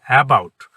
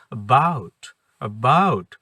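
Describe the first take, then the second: First: "about" drawn out, first syllable loud and full; mispronounced "about" with a heavy "a"; wrong stress. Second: "about" with a tiny weak first syllable, stress on "bout"; right way: reduced "a", stressed "bout"; correct pronunciation. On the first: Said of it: "আসলে সঠিক উচ্চারণটা কিন্তু তা না". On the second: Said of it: "এত ছোটভাবে উচ্চারণ করবেন". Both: Shown as a demonstration.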